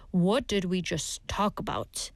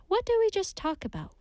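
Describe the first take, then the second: First: Low, deliberate warning; slow and firm. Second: Said in the usual way. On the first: Shown as a demonstration. Teacher showing how the phrase can sound like a warning, slow and firm. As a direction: say it slowly and firmly, pitched down. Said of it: "if you say it slowly and firmly". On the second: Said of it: "today's expression is".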